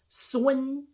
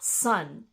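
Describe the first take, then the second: First: The ending is a 'win' sound. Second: The ending is an 'un' sound. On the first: The speaker calls it right. "it's a win sound" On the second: The speaker calls it wrong. "not a un sound"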